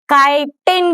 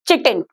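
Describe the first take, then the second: First: The word begins with a k sound. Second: The word begins with a ch sound. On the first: The speaker calls it right. "ये है काइटिन कहते हैं हम इसको" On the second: The speaker calls it wrong. "Most of them you से it's चिटिन। भैया चिटिन नहीं है ये"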